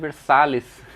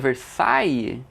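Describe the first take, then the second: First: The name is pronounced the Portuguese way. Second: The name is pronounced the French way. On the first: This is how everyone actually says the name. "A galera todo mundo chama de Versalhes" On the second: This is the official pronunciation given for the name. "aqui a pronúncia Versailles"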